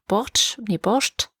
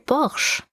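First: The word is said with a British pronunciation. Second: The word is said the Russian way, without t. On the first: "Die Briten sagen Borscht" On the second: "da heißt das tatsächlich einfach nur Borsch. Ohne irgendein T irgendwo"

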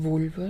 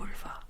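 First: The word is said at normal loudness. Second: The word is said in a quieter voice.

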